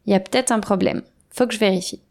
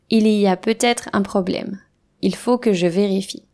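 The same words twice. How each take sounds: First: «peut-être» shrunk to «p'têt», «il faut» to «faut»; natural reduced speech. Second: «il y a peut-être» and «il faut» fully pronounced; careful full pronunciation. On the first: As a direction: swallow the syllables like a native. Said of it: "Naturellement, je dirais". (français oral relâché, syllabes avalées) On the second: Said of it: "Voici une phrase exemple". (prononciation soignée et complète) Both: Shown as a demonstration.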